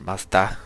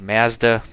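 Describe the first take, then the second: First: It is said the way it's said in Mexico. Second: It is said the way Canadians say it.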